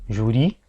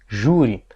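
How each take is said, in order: First: The stress is on the last syllable. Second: The stress is on the first syllable. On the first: The speaker calls it wrong. "uma oxítona terminada em I" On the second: The speaker calls it right. "Então eu tiro a sílaba tônica que estava aqui, passo para cá"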